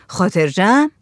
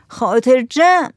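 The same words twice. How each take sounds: First: «خاطر جمع» with a rising question tune; doubting «خاطر جمع», lifted on «جمع». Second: Slow, higher «خاطر جمع» as a firm promise; emphatic answer «خاطر جمع», stretched out; assuring. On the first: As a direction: ask «خاطر جمع» as a check, ending upward. Server asks for assurance. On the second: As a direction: draw out «خاطر جمع» to reassure. Villager repeats it as assurance. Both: A narrator's reading.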